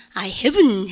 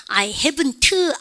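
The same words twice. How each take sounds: First: HAVEN'T finishing on a held "n", no T; n sound ending. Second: HAVEN'T slowly with a separate "tuh" at the end; overdone final T. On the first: Teacher showing the negative, "haven't" ending in n. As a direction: drop the T of "haven't" and hum the n. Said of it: "은 사운드 넣으면 부정의 not". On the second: Teacher mimicking what nobody does, "haven't" with heavy T. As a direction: spell out the T in "haven't", very slow. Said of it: "아무도 안 그러거든요". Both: Shown as a demonstration.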